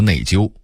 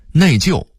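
First: 内疚 as nèijiū; level first tone on 疚 in 内疚; Beijing reading. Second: Said in the usual way. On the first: Shown as a demonstration. Narrator contrasting word lists, Beijing reading. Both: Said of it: "北京话读内疚".

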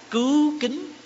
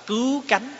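First: "kính" said with an i vowel, rising tone; reading "kính". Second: "cánh" said with an open a vowel, rising tone; variant reading "cánh". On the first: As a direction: say "cứu kính", second word with the i sound. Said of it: "Có khi chúng ta đọc là cứu cánh". (đọc "kính" với âm i, thanh sắc) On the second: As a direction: say "cứu cánh", second word with the a sound. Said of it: "Có khi chúng ta đọc là". (đọc "cánh" với âm a, thanh sắc) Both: Shown as a demonstration.

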